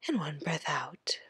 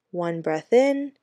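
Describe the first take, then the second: First: Whispered breath count. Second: Said in the usual way. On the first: A narrator's reading. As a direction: breathe the words out unvoiced. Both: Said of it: "Danny thought".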